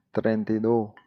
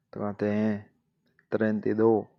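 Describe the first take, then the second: First: Said in the usual way. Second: Drawn-out, careful "treinta y dos"; slow teacher's model of "treinta y dos". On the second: Shown as a demonstration. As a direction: spell out "treinta y dos" slowly for the learner. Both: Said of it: "slowed repeat of treinta y dos".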